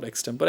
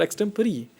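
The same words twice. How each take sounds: First: "extempore" cut to ex-TEM-por; three-syllable "extempore", no "ree" at the end; mistaken pronunciation. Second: "extempore" as ex-TEM-puh-ree, pitched high; four-syllable "extempore", ending in "ree"; corrected pronunciation. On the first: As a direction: leave the final ee off "extempore". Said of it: "It's not extempore". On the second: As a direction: add a clear final ee to "extempore". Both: Shown as a demonstration.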